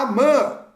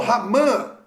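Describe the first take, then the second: First: The name starts directly with a vowel. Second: The name starts with a rough h sound. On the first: "provavelmente Amã" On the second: "o H ele tem som de R na língua hebraica"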